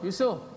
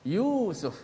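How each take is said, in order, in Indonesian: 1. Vokal pertama pendek dan tidak dipanjangkan. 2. Vokal pertama dipanjangkan, panjang, dan ditekankan. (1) "Kalau kita orang Melayu kita cakap Yusuf Yusuf Yusuf, kita tak ikut dia punya mat tu" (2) "dia akan tekankan suara you tu kerana ada mat dipanjangkan"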